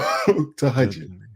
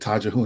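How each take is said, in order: First: The word is said as 'tahajjud'. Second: The word is said as 'tajahun'. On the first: The speaker calls it right. "So tahajjud" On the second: The speaker calls it wrong. "I called it tajahun. I didn't know how to pronounce it"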